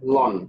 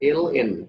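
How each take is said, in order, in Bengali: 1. এটি এক দলের উচ্চারণ, "lon"। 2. এটি দুটি অক্ষরের নাম হিসেবে বলা হয়। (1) "এটাকে হয়তো তোমরা অনেকে লন করে থাকো" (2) "আসল মানে উচ্চারণ হবে হচ্ছে এল এন"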